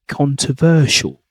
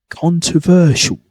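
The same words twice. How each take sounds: The two takes are said the same way.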